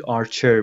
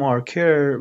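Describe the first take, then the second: First: آرچر, middle sound CH as in chair; Archer with CH. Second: آرکر, middle sound a hard K; Archer with a K. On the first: Teacher corrects the name from the listening, CH in آرچر. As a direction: say آرچر with CH, not K. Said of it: "تو لیسنینگ آرچر بودش". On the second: Teacher repeats how she first read the name, K in آرکر. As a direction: say آرکر with K, not CH. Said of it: "من گفتم آرکر". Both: Shown as a demonstration.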